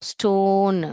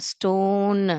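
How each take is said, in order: No difference in how they are said.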